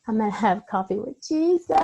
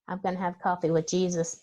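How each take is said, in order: First: It sounds desperate and pleading. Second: It sounds casual and relaxed.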